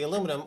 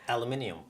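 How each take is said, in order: First: It has four syllables, ending in -num. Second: It has five syllables, ending in -nium. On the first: "it's the aluminum" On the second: "as the British people say"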